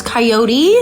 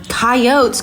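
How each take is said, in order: First: "coyote" as kai-OH-tee, rising at the end; questioning three-syllable coyote. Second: "Coyotes" as KAI-ohts, no final ee; two-syllable coyote. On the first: Podcaster querying a word from the show, "coyote" as kai-OH-tee, questioning. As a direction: query it: "coyote" with a final ee, pitched up. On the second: Podcaster repeating a word from the show, "Coyotes" said KAI-ohts. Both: Shown as a demonstration. Tries two ways of saying it.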